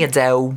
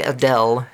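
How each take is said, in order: First: The name ends with a W-like sound. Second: The name ends with a clear L sound. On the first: "her Cockney accent has her like" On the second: "She doesn't say Adele. That's what we do"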